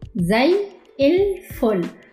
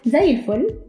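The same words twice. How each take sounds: First: It is said slowly and carefully. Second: It is said quickly and smoothly.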